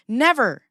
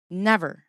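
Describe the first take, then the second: First: NEVER loud and high, falling; firm never. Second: Said in the usual way. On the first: Real, not acted. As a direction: stamp down the word Never.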